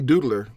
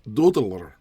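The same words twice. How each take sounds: First: The word is said in a plain accent. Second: The word is said in a Scottish accent. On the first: "I can say doodler in English" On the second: "trying to say it with a Scottish accent"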